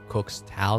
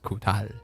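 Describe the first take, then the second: First: The X is said as a 'ks' sound. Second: The X is said as an 'h' sound. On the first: The speaker calls it wrong. "when it says Cook's Tal there" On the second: The speaker calls it right. "it's supposed to be pronounced Kutal"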